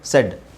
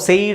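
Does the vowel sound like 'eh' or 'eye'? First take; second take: eh; eye. First: The vowel sounds like 'eh'. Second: The vowel sounds like 'eye'. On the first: The speaker calls it right. "ಎ ಐ sound ಬಂದು ಎ sound ಆಗುತ್ತೆ" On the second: The speaker calls it wrong. "ಸೈಡ್ ಅಂತ ಹೇಳಬಾರ್ದು"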